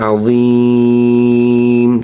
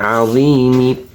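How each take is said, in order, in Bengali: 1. শব্দটি কোনো স্বরধ্বনি ছাড়া 'm' দিয়ে শেষ হয়। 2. শব্দটি একটি হ্রস্ব 'i' স্বরধ্বনি দিয়ে শেষ হয়। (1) "অক্ফ করলে আজিম" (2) "যদি আমরা বানাম করে পড়ি তাহলে জেরের উচ্চারণ আজিমি হবে"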